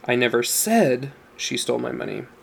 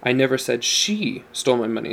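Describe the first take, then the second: First: The stress is on "said". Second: The stress is on "she".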